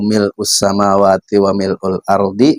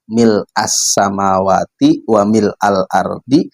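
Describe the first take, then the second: First: The word mil' is read with a u ending. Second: The word mil' is read with an a ending. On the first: The phrase describes the praise as an attribute. "boleh dibaca rofa" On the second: The phrase describes the state of the praise. "boleh dibaca nasob"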